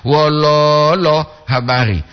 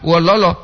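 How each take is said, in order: First: "Wololo" with a long held middle lo, then habari; "lo" panjang. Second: "Wololo" quick, all three syllables short; "lo" pendek. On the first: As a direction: stretch the added O in "Wololo". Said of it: "tambah lagi O di lo itu". ("Wololo" dengan "lo" tengah dipanjangkan) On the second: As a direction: keep "Wololo" unstretched. ("Wololo" pendek tanpa tarikan) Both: Shown as a demonstration.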